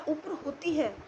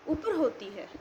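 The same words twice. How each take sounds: The two takes are said the same way.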